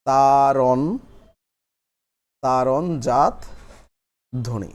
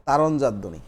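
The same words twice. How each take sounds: First: তারণ, তারণজাত ধ্বনি in pieces with long pauses; slow dictation. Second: Said in the usual way. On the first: Shown as a demonstration. Teacher dictating while everyone writes, slow and broken up. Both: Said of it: "সবাই লিখে ফেলি".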